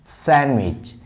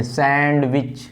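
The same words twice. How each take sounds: First: सैंडविच said sanwich with no d; सैंडविच as sen-wich, the d dropped; silent d. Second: सैंडविच with the d clearly sounded, sand-wich; सैंडविच spoken sand-wich to show the mistake; wrong d sounded. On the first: Teacher shows the class सैंडविच without the d. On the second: Teacher shows the wrong way with the d in सैंडविच. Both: Shown as a demonstration. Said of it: "इसको कभी भी सैंडविच नहीं पढ़ते".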